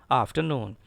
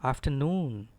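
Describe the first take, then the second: First: Afternoon with a sounded R in "after"; wrong way. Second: Afternoon as af-tuh-NOON, no R; careful afternoon, R silent, long falling NOON; correct pronunciation. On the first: Retold or imitated. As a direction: say afternoon as af-ter-noon, R heard. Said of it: "It is not". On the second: Shown as a demonstration. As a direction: drop the R in afternoon and stretch NOON. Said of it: "It is actually".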